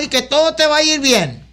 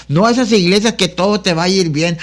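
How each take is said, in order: First: High, sing-song mock of an easy promise; mocking prosperity preacher. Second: Said in the usual way. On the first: Preacher mocking churches that promise everything goes well, high sing-song. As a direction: lift the pitch and parody the feel-good preacher. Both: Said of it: "Ah, y es lo que queremos".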